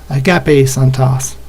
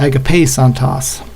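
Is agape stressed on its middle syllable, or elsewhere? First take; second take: middle; elsewhere. First: The stress falls on the middle syllable ga. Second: The stress falls off the middle syllable. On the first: The speaker calls it right. "The right way, I believe, is aga, with it on the ga" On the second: The speaker calls it wrong. "not agape santos"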